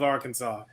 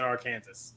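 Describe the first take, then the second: First: Arkansas said AR-kən-saw; standard pronunciation of Arkansas. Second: Arkansas said ar-KAN-zəs; Arkansas rhymed with Kansas. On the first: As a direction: end Arkansas in "saw", silent final s. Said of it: "Or is it Arkansas?". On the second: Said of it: "Which is it?". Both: Shown as a demonstration.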